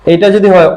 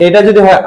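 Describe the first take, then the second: No difference in how they are said.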